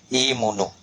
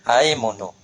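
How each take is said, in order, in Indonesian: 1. Vokal pertama adalah bunyi 'i'. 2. Vokal pertama adalah bunyi 'a'. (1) "kasrah imunu" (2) "Ya baca patau"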